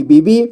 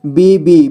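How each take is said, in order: First: Said in the usual way. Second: Bibi drawn out as B-B; syllable by syllable. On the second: Shown as a demonstration. Teacher showing beginners how to read Bibi, syllable by syllable. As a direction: give each half of Bibi its own beat. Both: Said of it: "जोड़ जोड़ करके ही पढ़ना होगा".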